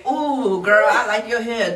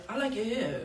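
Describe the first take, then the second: First: Put-on bubbly girlfriend compliment; girly compliment. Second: Said in the usual way. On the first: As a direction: gush like a girlfriend. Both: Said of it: "I don't have a feminine ass voice".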